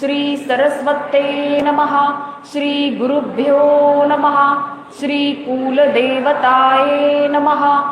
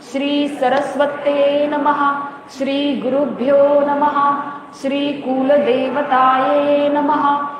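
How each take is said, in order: No difference in how they are said.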